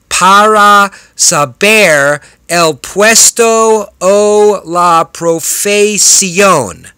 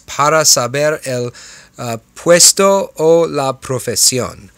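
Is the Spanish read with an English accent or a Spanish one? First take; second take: English; Spanish. First: It is read with a heavy English accent. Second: It is read with Spanish-like pronunciation.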